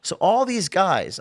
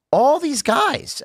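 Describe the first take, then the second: First: Said in the usual way. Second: All these guys drawn out high and slow; emphatic. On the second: Real, not acted. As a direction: lean hard on "all these guys", slowly, pitch up.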